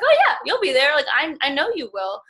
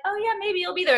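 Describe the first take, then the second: First: Sure, enthusiastic reply. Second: Much higher, half-hearted doubtful "maybe"; a lightly mocked noncommittal shrug; doubtful mock reply. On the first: Retold or imitated. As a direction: burst out with total belief. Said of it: "I was like". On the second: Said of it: "part of me was like".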